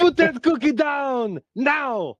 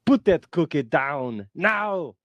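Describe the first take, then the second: First: Arnold Schwarzenegger impression. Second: Put-on slow Austrian accent, no shout; Arnold Schwarzenegger impression. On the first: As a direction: bark it like Schwarzenegger. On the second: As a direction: calmer Schwarzenegger repeat. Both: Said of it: "Arnold Schwarzenegger ... when he says".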